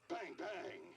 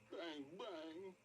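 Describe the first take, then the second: First: It is said in an angry tone. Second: It is said in a sad tone.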